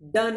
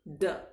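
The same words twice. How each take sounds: First: The d sound is hard and forceful. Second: The d sound is softened and gentle. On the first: The speaker calls it wrong. "ड नहीं" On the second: The speaker calls it right. "इसको थोड़ा सा soften कर देते हैं"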